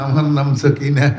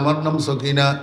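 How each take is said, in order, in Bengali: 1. এটি মিষ্টি, নরম কণ্ঠে বলা হয়েছে। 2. এটি সাধারণ, স্বাভাবিক কণ্ঠে বলা হয়েছে। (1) "এটা একটা কথা বলার ধরন।" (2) "তুমি স্বাভাবিক কণ্ঠে বললে"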